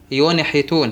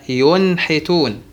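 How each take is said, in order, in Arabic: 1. النون ترتدّ بصدى قصير قبل الصوت التالي. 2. النون تنساب بسلاسة إلى الصوت التالي. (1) "القلقلة للنون الساكنة" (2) "لا"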